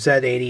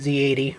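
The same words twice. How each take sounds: First: The letter Z is pronounced 'zed'. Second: The letter Z is pronounced 'zee'.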